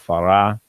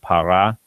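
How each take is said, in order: First: The word begins with a soft f sound. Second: The word begins with a hard p sound. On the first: The word follows a word ending in a vowel. "it just sort of drops out and it softens that sound" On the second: The word stands by itself. "Normally by itself the word would be para"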